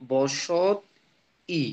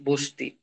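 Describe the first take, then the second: First: বসত ই split apart, the ই said separately after বসত; spelling-style pronunciation. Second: বস্তি said as one word, স and ত joined with ই at the end; natural pronunciation. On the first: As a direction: say বসত, then ই on its own. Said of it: "আমরা বলি না কি". (বসত আর ই আলাদা করে বলা) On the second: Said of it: "আমরা বলি". (বস্তি একটানা স্বাভাবিক উচ্চারণ) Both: Shown as a demonstration.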